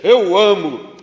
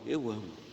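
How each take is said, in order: First: It is said in an arrogant, proud tone. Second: It is said in a humble, modest tone.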